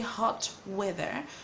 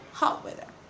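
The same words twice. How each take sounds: First: The T in 'hot' is fully released. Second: The T in 'hot' becomes a glottal stop. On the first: The speaker calls it wrong. "We don't say hot weather" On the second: The speaker calls it right. "we say hot weather"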